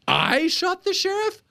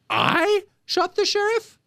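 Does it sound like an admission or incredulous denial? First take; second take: incredulous denial; incredulous denial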